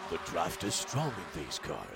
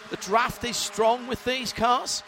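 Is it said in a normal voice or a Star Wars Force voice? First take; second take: Force voice; normal voice. First: It is said in a put-on Force voice. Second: It is said in his normal voice.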